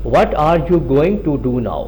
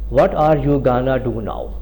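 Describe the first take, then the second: First: 'Going to' is said fully as two words. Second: 'Going to' is reduced to the single word 'gonna'. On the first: "अगर हम गोइंग टू के साथ तो हम कुछ यूं करेंगे" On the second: "advance English के साथ इस्तेमाल करेंगे तो हम कुछ यूं बोलेंगे"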